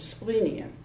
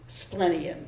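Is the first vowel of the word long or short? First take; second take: long; short. First: The first vowel is long. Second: The first vowel is short. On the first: The speaker calls it right. "The correct pronunciation is" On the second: The speaker calls it wrong. "I went with the incorrect pronunciation"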